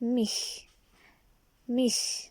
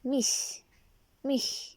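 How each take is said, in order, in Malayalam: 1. അവസാന ശബ്ദം sh പോലെയാണ്. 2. അവസാന ശബ്ദം huge-ലെ h പോലെയാണ്. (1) "ഒന്നെങ്കിൽ ഷ്" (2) "അല്ലെങ്കിൽ ഹ്യൂജിൻ്റെ നമ്മൾ എച്ചിന് കൊടുക്കുന്ന പ്രൊനൗൺസിയേഷൻ"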